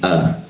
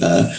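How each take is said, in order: First: The vowel is made in a wide-open mouth. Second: The vowel starts deep in the throat. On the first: "Kalau di Indonesia itu a di sini" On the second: "Posisinya harus tepat di sini"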